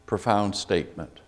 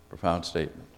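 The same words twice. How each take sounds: First: Said in the usual way. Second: Repeated much softer, almost to himself; soft echo. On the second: Real, not acted. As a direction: let the words sink in quietly.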